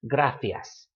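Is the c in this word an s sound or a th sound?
th. The c is said as a th sound. It is how the word is said in Spain. "the C has that th, theta sound"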